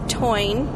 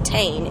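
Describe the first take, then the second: First: The vowel sounds like 'oy'. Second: The vowel sounds like 'ay'. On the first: "she pronounced it the Toine" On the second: "it looks like Tain"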